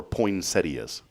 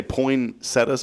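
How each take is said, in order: First: "poinsettias" said poin-SET-ee-uhs, with an ee before the last vowel; pronunciation variant. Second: "poinsettias" said poin-SET-uhs, ending in a plain uh; pronunciation variant. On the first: Host offers the other option, "poinsettias" as poin-SET-ee-uhs. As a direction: say "poinsettias" in four syllables, ending ee-uhs. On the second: Host asks how Rick says it, "poinsettias" as poin-SET-uhs. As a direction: say "poinsettias" in three syllables, without the ee sound. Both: Shown as a demonstration. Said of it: "do you say poinsettias or poinsettias".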